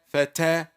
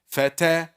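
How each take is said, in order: No difference in how they are said.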